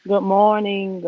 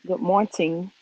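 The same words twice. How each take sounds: First: Said in the usual way. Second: "morning" said with a crisp T, morn-ting; deal's catchphrase pronunciation. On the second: Retold or imitated. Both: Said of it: "That's what deal would say".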